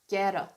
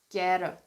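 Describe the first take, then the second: First: The t softens into an American flap sound. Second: The t softens into an American flap sound.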